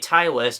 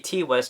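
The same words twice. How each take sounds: First: The first name sounds like T followed by I. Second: The first name sounds like the single letter T. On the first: "I'm saying it as like T and I" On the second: "I'm just saying the letter T"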